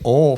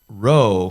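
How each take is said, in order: First: The first R sound is left off. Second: The final L sound is left off. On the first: Listeners cannot understand the word. The speaker calls it wrong. "if I say ol for roll, you're not going to understand it" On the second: Listeners can still understand the word. The speaker calls it right. "if I say the word row for roll, you're likely to understand it"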